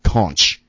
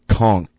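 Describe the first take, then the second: First: The word ends with a ch sound. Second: The word ends with a hard k sound. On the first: The speaker calls it wrong. "Not conch. That drives me crazy" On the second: The speaker calls it right. "It's conk. CK sound"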